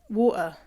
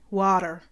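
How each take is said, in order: First: The middle T is dropped, British Peterborough style. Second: The middle consonant is a D, Canadian style.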